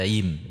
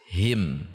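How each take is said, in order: First: The h sound is weak and unclear. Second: The h sound is clear and audible. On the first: The speaker calls it wrong. "tidak dibaca him" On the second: The speaker calls it right. "H-nya harus jelas"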